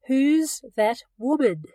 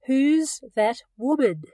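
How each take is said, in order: Both takes have the same delivery.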